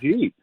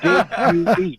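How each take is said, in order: First: The words are squeezed into one short syllable. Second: Each word is pronounced fully and separately. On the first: "we seem to have butchered the words "did you?"" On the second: "I had to sound it out for him"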